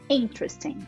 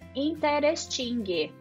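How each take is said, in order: First: It ends without any released g sound. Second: It ends with an audible released g sound. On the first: The speaker calls it right. "Você não pronuncia ele. Você finge que você vai pronunciar e para por ali" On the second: The speaker calls it wrong. "Ela termina com esse gui no final"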